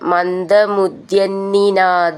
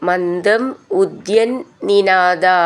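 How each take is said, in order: First: The two words are run together as one word. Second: The two words are said as separate words.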